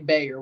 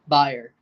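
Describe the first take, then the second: First: The name is said with an American pronunciation. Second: The name is said with a German pronunciation. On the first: It refers to the company. "When I'm talking about the company, I say Bayer" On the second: It refers to the football club. "When I'm talking about the club, Bayer. The way you should say it"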